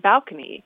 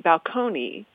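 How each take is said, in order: First: The stress is on the first syllable. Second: The stress is on the second syllable. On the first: "we often like to have the stress on the first syllable, so it became balcony" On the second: "the stress is on the second syllable, so it would be balcony"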